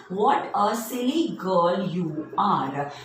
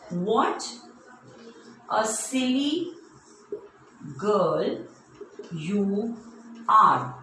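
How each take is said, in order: First: Put-on "What a silly girl you are" said slowly, with mild emphasis; emphatic exclamation. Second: Long pause after almost every word; word-by-word dictation. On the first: Teacher showing an exclamation mark, "What a silly girl you are" slow and emphatic. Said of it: "any emotion that I am emphasizing here". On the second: Teacher giving children an exclamation sentence, slow word-by-word dictation. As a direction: dictate it haltingly for someone writing along. Writing example exclamation on board. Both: Shown as a demonstration.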